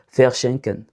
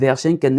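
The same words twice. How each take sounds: First: The word begins with an f sound. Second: The word begins with a v sound. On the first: The speaker calls it right. "On va prononcer ça comme faire" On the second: The speaker calls it wrong. "Verschenken est impossible"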